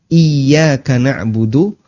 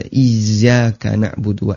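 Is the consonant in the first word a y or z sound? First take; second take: y; z. First: The first word has a y sound in it. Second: The first word has a z sound in it. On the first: The speaker calls it right. "Tekan Y" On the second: The speaker calls it wrong. "ada Z-nya. Dan itu keliru"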